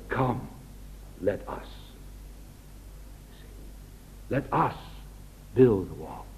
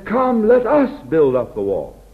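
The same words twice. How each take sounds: First: Softer, lower, inviting them in; a soft, humble call to build together; humble, gentle invitation. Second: Said in the usual way. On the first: Retold or imitated. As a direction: lay the words down gently, humble. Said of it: "a man of God doesn't talk like that". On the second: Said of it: "But he says".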